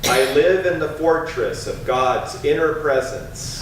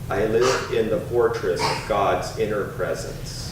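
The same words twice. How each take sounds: First: It is spoken in a strong, loud voice. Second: It is spoken in a softer, ordinary voice. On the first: "Once again with a strong voice" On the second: "a little softer with a speaking voice"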